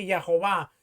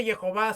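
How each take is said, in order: First: Jehová with an A in the first syllable, Ya-ho-VÁ; corrected pronunciation. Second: Jehová with an E in the first syllable, Ye-ho-VÁ; disputed pronunciation. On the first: Correcting others in a retold debate, Jehová said "Ya-ho-VÁ". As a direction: pronounce Jehová as "ya-ho-VÁ". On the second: Retelling a debate over God's name, Jehová said "Ye-ho-VÁ". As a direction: pronounce Jehová as "ye-ho-VÁ". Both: Retold or imitated. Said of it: "no pronunciarlo correctamente".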